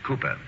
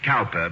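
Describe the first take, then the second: First: The first vowel sounds like in 'coo'. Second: The first vowel sounds like in 'cow'. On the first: "but pronounced Cooper" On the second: "It is spelled Cowper"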